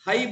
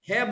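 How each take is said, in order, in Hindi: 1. स्वर 'अ' से 'इ' की ओर सरकता है। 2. स्वर एक सामान्य 'ए' ध्वनि है। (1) "हई बोलना चाहिए" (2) "हिंदी वाले तो अगर ह में आई की मात्रा है तो बोलेंगे है"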